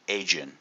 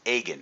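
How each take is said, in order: First: The G is pronounced soft, like a J. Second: The G is pronounced hard, as in go. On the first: The speaker calls it wrong. "mispronounced the name" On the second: The speaker calls it right. "hard G"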